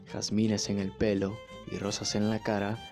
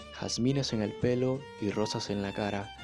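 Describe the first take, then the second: Both takes have the same delivery.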